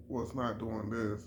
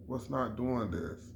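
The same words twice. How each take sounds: The two takes are said the same way.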